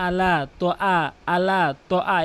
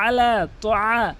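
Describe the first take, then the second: First: "আলা" starting on a plain a; "তোয়া" with a simple vowel, no throat squeeze; mistaken, ayn dropped. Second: "আলা" opening on a squeezed pharyngeal ayn; slow "তোয়া" with throaty ayn in the long a; correct ayn. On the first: Teacher shows common mistake, plain vowels. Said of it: "এভাবে বলে". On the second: Teacher corrects the mistake, throaty ayn. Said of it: "বলতে হবে আলা তোয়া". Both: Shown as a demonstration.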